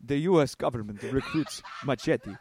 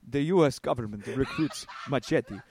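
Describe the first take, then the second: First: It is read in a put-on Spanish accent. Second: The same.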